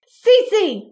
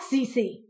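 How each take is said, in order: First: High, loud roar of a name; a furious mother's roar. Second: Said in the usual way. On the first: Acted. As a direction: bellow her daughter's name to stop her. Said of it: "Mama roared".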